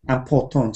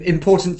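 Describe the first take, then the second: First: It is said with a French-style accent. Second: It is said with a plain English accent. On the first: The speaker calls it wrong. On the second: The speaker calls it right.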